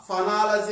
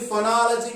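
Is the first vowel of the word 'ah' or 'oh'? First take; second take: ah; oh. First: The first syllable has an 'ah' vowel. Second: The first syllable has an 'oh' vowel. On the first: The speaker calls it right. "ఫ ఫొనాలజీ అని pronunciation చేయాలి" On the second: The speaker calls it wrong. "ఇది ఫొనాలజీ కాదండి"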